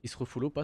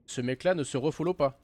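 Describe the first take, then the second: First: Said in the usual way. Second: "Ce mec-là" punched louder with a falling line; indignant stress on "mec-là". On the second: Real, not acted. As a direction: lean hard on "mec-là", outraged.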